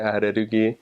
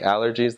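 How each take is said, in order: First: It is said with a Japanese accent. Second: It is said with an English accent.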